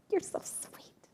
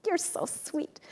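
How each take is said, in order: First: Breathy whisper, no voice at all; whispered you're so sweet; whispered aside. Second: Sweetly dismissive. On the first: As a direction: whisper it like a shy secret. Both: Retold or imitated. Retold brush-off of compliment.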